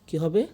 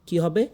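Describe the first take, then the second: No difference in how they are said.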